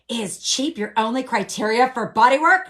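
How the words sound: It sounds challenging and confrontational. The asker is attacking the other person's choice. The speaker calls it wrong. "this is not a jousting match here"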